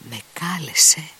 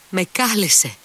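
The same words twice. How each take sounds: First: Higher, breathless whisper; stunned whisper. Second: Much higher and louder cry. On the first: Grushenka reading the letter, whispering in shock. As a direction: breathe it out in disbelief. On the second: Grushenka after reading the letter, crying out high. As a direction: burst out, overwhelmed. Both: A narrator's reading. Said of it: "φώναξε κατάχλωμη".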